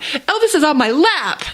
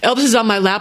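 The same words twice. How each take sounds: First: The voice sounds happy and delighted. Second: The voice sounds annoyed and put upon. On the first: Having the cat there is wonderful. The speaker calls it right. "That's the best thing ever" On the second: Having the cat there is a problem. The speaker calls it wrong. "saying it like, uh, Elvis is on my lap, like that's a problem"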